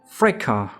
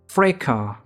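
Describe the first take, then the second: First: It is said with a British English pronunciation. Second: It is said with a British English pronunciation.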